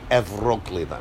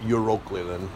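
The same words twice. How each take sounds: First: It begins with an 'ev' sound. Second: It begins with a 'you' sound. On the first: "a U after an E becomes a V" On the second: "we call it Euroclithon"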